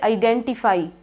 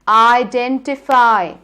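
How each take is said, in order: First: The last vowel sound is short and clipped. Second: The last vowel sound is stretched with an open mouth. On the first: The speaker calls it wrong. "Don't say identify" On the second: The speaker calls it right. "Stretch the sound, open your mouth"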